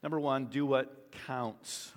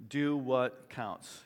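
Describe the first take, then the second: First: Said in the usual way. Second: "Do what counts" said slowly, each word weighted; slow emphasis. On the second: Shown as a demonstration. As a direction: space out "Do what counts" deliberately.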